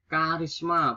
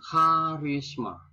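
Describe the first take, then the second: First: "Karisma" with a hard k; standard pronunciation. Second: "karisma" opening on kh; nonstandard pronunciation. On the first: (ucapkan "Karisma" dengan k, tanpa h) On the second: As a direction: say "karisma" as kha-ris-ma. (ucapkan "karisma" menjadi kharisma) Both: Shown as a demonstration. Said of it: "biasanya juga pakai H".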